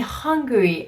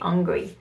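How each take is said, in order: First: The word is said with an initial h sound. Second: The word is said without an initial h sound. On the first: The speaker says she wants food. The speaker calls it right. "oh, you mean hungry?" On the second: The speaker seems to say she is upset. The speaker calls it wrong. "why she's upset?"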